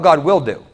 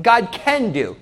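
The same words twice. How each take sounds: First: "God will do" with the weight on "will"; stress on "will". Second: "God can do" with the weight on "can"; stress on "can". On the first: Preacher challenging the congregation's belief, stressing "will". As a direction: lean on "will", as a firm certainty. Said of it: "How about God will do". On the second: Preacher testing the congregation's belief, stressing "can". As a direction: lean on "can", as mere possibility. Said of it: "That's possible". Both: Shown as a demonstration.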